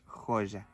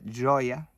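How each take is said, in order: First: The j has a strong Spanish sound. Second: The j has a soft Portuguese sound. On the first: "en español decimos joya" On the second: "a diferencia del portugués que es J"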